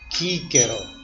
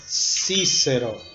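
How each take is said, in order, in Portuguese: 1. Os sons de C são pronunciados como k. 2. Os sons de C são pronunciados como s. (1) "Na pronúncia restaurada, essa palavra seria Quíquero" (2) "teria o valor G, G e C, Si, como na palavra Cícero"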